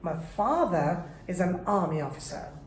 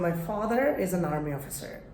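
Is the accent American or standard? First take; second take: standard; American. First: It is spoken in a standard, non-American accent. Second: It is spoken in an American accent. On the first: "but standard তো তো আছে" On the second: "আমেরিকানরা এটা বলবে"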